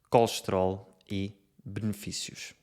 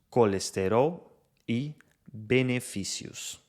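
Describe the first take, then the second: First: Unstressed vowels are compressed or dropped entirely. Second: Unstressed vowels are fully pronounced, even syllable timing. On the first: "E em Portugal, pronunciam-se" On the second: "No Brasil, pronunciam-se"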